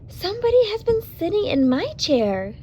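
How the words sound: It is said in a sweet, low voice.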